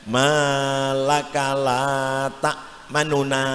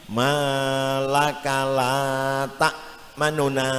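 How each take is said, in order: The two takes are said the same way.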